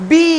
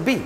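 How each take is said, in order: First: বি with a long, stretched vowel; drawn-out letter. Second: বি said short, without the drawl; quick, unstretched বি; short vowel. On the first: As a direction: hold the ee in বি long. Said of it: "টান দিতে হবে". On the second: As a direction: cut the ee in বি short. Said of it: "pronunciation হচ্ছে না". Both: Shown as a demonstration.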